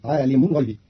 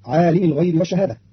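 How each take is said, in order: First: عالم said "ʕalimu" ending in u; عالم بالرفع; final u on mim. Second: Said in the usual way. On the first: Shown as a demonstration. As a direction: end عالم on a clear u, ʕalimu. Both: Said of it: "برفع اللام".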